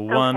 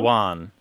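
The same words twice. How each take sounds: First: The vowel is a plain 'uh' sound. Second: The vowel is shifted toward an 'ah' sound.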